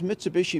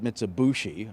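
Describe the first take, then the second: First: The third syllable is said as 'bi'. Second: The third syllable is said as 'bu'.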